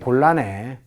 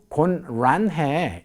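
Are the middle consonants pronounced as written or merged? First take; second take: merged; as written. First: The middle consonants merge into one sound. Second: The middle consonants are pronounced separately, as written. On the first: The speaker calls it right. "이렇게 읽게 되는 것이죠" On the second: The speaker calls it wrong. "이렇게 이야기하는 사람은 아직은 못 봤어요"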